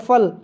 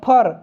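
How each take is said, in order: First: The word ends with an l sound. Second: The word ends with an r sound. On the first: This is the standard Hindi form. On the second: This is the Awadhi dialect form.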